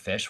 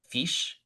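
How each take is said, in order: First: The vowel is a plain short 'ih' sound. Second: The vowel leans toward a longer 'ee' sound. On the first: "the word fish" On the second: "she would say like fish. Like it was a little more e than I"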